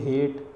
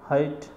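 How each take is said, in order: First: The vowel is a short e sound. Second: The vowel is an open ae sound. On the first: The speaker calls it wrong. "इसको ऐसे नहीं बोलेंगे ... ये तो छोटी ए की मात्रा होगी" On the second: The speaker calls it right. "इसको इस तरह से बोला जाता है"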